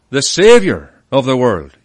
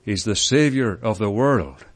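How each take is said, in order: First: "Saviour" punched loud, then "of the world" dropping away; stress on Saviour. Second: "world" set apart at the end, low and unforced; stress on world. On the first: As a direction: lean hard on the word Saviour. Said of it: "you could emphasize that he is". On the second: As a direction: close firmly on the word world. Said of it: "then you could emphasize". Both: Shown as a demonstration.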